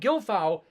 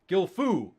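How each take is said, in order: First: The last syllable is not said as foo. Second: The last syllable is said as foo. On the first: The speaker calls it wrong. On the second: The speaker calls it right.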